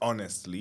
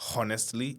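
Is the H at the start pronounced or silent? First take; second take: silent; pronounced. First: The first H sound is silent. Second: The first H sound is pronounced. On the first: The speaker calls it right. "It's honestly. ... I didn't know the H was silent" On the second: The speaker calls it wrong. "I'm not su- supposed to say honestly"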